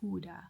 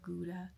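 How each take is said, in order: First: The word is said the local way. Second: The word is said the English way. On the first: This is how the locals say it. "they pronounce it Huda" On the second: This is the familiar form the locals do not use. "instead of Gouda"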